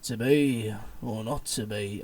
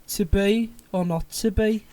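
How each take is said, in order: First: Low, slow Birmingham gangster; Tommy Shelby. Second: Put-on louder, higher Birmingham accent; Brummie Shakespeare. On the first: Acted. Retrying Hamlet as a Peaky Blinders gangster, low and slow. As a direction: drag it out low in a Brummie accent. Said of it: "sounded like, like Tommy Shelby from Peaky Blinders". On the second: Trying out how Shakespeare might have sounded, in Brummie. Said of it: "might have had a Birmingham accent".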